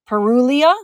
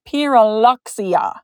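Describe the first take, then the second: First: No 'ks' sound is heard before the ending. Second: A 'ks' sound is heard before the ending. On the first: The speaker calls it wrong. "leave it out" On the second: The speaker calls it right. "So you do actually pronounce the X"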